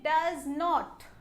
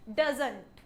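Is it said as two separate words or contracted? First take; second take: separate; contracted. First: Two full words are said separately. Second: The words are joined into one contracted word. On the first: The speaker calls it wrong. "इसको हम ऐसे नहीं बोलेंगे" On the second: The speaker calls it right. "हमें simple बोला है"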